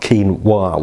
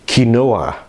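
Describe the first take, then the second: First: The word ends in a wa sound. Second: The word does not end in a wa sound. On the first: The speaker calls it wrong. "It's not quinoa. Where do you get wa from?" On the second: The speaker calls it right. "it's Spanish derived. It's quinoa or something like that"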